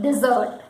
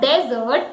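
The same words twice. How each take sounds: First: "dessert" as dih-ZERT; short unstressed first syllable in "dessert", dih-ZERT; correct dessert. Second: "dessert" as DEZ-ert, stress up front; wrong dessert. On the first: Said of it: "it is dessert". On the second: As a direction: open first vowel in "dessert", DEZ-ert. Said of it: "it is not dessert". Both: Shown as a demonstration.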